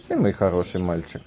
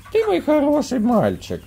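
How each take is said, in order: First: Said in the usual way. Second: Very high squeaky praise; squeaky praising a dog. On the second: Real, not acted. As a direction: praise the pup in falsetto.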